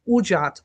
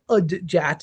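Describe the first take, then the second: First: It begins with 'u', no d before j. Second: It begins with 'ud', a d before j. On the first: The speaker calls it right. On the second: The speaker calls it wrong. "a lot of people say"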